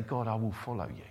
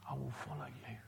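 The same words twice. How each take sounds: First: Said in the usual way. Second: A breathy private promise; hushed whispered prayer; whispered vow. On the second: Acted. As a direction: whisper it, almost to yourself. Voicing the believer's response.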